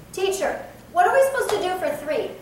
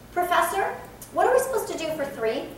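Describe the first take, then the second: First: Teacher, called out high and louder, blunt; slightly rude. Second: Professor, lifted high and respectful, quick; polite address. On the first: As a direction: address the teacher a bit rudely. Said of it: "kind of rude". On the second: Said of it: "Totally different". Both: Pretend.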